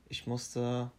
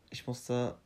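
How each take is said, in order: Both takes have the same delivery.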